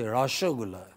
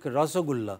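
First: The middle consonant is an sh sound. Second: The middle consonant is a plain s sound. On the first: "they say rasagulla" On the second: "they don't take rasagulla"

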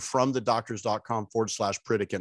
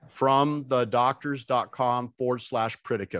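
First: It is said at normal speed. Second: It is said slowly and deliberately.

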